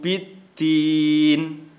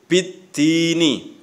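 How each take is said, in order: First: The word ends on a consonant, vowel dropped. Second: The word ends with a final vowel sound.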